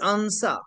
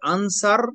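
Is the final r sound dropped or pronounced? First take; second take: dropped; pronounced. First: The final r sound is dropped. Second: The final r sound is pronounced. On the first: "তারা বলে আনসা" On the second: "যেমন আমরা বলি আনসার"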